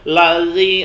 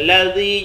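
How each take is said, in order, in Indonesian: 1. Konsonan tengah diucapkan tebal dan berat. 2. Konsonan tengah diucapkan sangat tipis dan ringan. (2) "huruf zal itu setipis mungkin nyebutnya"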